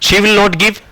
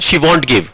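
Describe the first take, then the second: First: Both words 'will not' are said in full. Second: 'Will not' is shortened into one syllable. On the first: "आप ऐसे कह सकते हैं she विल नॉट give" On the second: "but आप ऐसे बोले she वॉन्ट give"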